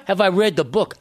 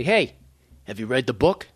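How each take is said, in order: First: "I" pushed up and louder in "Have I read the book?", incredulous; stress on I. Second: Put-on a light Merrimack Valley accent, asking casually; townie Merrimack accent. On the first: Shown as a demonstration. Author answers the townies, incredulous stress on "I". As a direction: lean on "I" in "Have I read the book?" with mock disbelief. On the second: Hometown locals ask about the book, lightly mocked Merrimack accent. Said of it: "in my town, they say".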